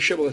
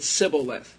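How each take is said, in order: First: The word begins with an sh sound. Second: The word begins with an s sound. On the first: The speaker calls it right. "couldn't say shibboleth" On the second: The speaker calls it wrong. "They always said sibboleth. They couldn't say SH sound"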